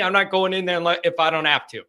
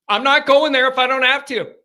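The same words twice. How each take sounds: First: Said in the usual way. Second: Louder and higher, hitting "going"; the final word on it, insisted; firm emphatic repeat. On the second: Real, not acted. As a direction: say it again and mean it, louder.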